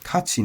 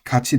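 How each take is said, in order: First: The accent is not on the final syllable. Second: The accent is on the final syllable. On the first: The verb is nominalized without becoming a full noun. "the accent does not move to the end. It stays where it was" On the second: The word is used as a full noun. "when these turn into nouns, it moves to the end"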